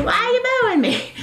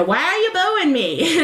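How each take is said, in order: First: Much higher, hammed-up New York accent; hammed-up Sylvia, thick New York accent. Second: Imitating Sylvia with a thick New York accent. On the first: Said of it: "thick New York accent". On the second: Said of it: "and Sylvia says".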